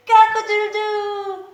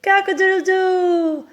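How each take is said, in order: First: High crowing cock-a-doodle-doo; rooster crow. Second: Mock rooster crow. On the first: Shown as a demonstration. Teacher crowing for the kids like a rooster. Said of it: "a rooster". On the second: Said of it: "My dad, of course".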